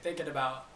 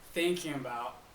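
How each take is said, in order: First: The two words roll smoothly together. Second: The two words are said more separately. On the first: The speaker calls it right. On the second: The speaker calls it wrong.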